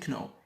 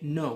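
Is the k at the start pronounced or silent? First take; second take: pronounced; silent. First: The k at the start is pronounced. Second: The k at the start is silent. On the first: The speaker calls it wrong. "We don't say kno" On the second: The speaker calls it right. "Ki k is silent, silent. We say no"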